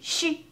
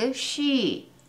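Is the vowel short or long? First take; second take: short; long. First: The vowel is short and flat. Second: The vowel is long and glides downward. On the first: The speaker calls it wrong. "she ではなくshe" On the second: The speaker calls it right. "long 音のイメージは上がって下がる"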